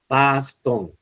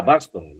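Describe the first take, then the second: First: Bastón with the stress on TÓN; stress on final syllable. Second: Bastón stressed on BÁS; stress on first syllable. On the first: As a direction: lean on the ó of bastón. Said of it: "lleva tilde en la O". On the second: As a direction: move the weight onto the a of bastón. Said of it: "si yo le pongo la tilde en la A". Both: Shown as a demonstration.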